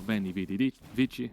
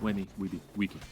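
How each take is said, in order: First: The C in the last word sounds like ch. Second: The C in the last word sounds like k. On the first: This is the church pronunciation of Latin. "in ecclesiastical Latin, for example, the C ... that would be a ch" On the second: This is the classical pronunciation of Latin. "classical Latin or Vulgar Latin"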